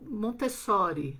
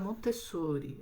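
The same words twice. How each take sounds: First: It has an open O, Brazilian style. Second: It has a closed O, Spain style.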